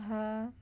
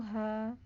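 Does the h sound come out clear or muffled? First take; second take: muffled; muffled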